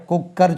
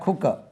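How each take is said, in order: First: "குக்கர்" with doubled k and sounded final r; wrong pronunciation. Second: "குக்கர்" as KU-ka, dropped final r; correct pronunciation. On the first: Teacher asking whether learners say it so, "குக்கர்" as kuk-kar. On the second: Teacher correcting learners, "குக்கர்" as khu-ka. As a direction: say "குக்கர்" with puffed first k, no r. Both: Shown as a demonstration. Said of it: "குக்கர் சொல்றீங்களா?".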